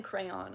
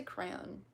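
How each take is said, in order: First: 'crayon' in two syllables, CRAY-on; disliked pronunciation. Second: 'crayon' as one syllable, CRAN; own pronunciation. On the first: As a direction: sound both vowels in 'crayon'. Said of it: "I don't like saying crayon". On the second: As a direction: squash 'crayon' to rhyme with 'ran'. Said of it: "I say crayon". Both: Shown as a demonstration.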